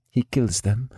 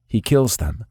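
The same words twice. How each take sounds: First: Said in the usual way. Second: Stunned repeat with stress on kills; shocked echo. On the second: A narrator's reading. Nikolai repeats Alina's words in shock, stress on kills. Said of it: "My eyes widened".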